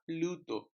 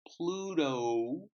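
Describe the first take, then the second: First: The final vowel has no linking W glide. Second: The final vowel glides into a linking W. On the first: The speaker calls it wrong. "it's not Pluto" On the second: The speaker calls it right. "it's Pluto"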